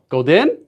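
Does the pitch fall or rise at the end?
rises. The pitch rises at the end. "If you're using a rising intonation, for example, golden"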